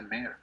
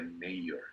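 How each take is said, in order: First: "mayor" said MAIR, one syllable; pronunciación correcta. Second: "mayor" wrongly said in two syllables, MAY-yo; pronunciación incorrecta. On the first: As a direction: run "mayor" together into a single MAIR. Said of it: "Realmente se pronuncia mayor". ("mayor" dicho MER, de una sílaba) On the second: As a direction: split "mayor" slowly into MEI-yo. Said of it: "no se dice mayor". ("mayor" mal dicho, MEI-yo) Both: Shown as a demonstration.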